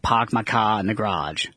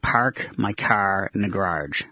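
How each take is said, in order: First: It is said in a Boston accent. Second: It is said with heavy local R's.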